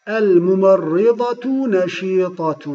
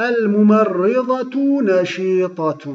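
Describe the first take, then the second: No difference in how they are said.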